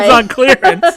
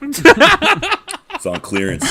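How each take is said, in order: First: High, loud salesman voice; mock sales pitch. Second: High, slow laughing pitch. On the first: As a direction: hype it like a bargain ad. Repeats the joke line. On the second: Pretend. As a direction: laugh through a fake sales pitch. Joking salesman pitch, laughing.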